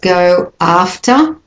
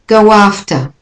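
First: The words are said separately, without a linking sound. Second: The words are joined by a linking w sound.

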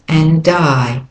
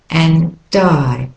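The two takes are said the same way.

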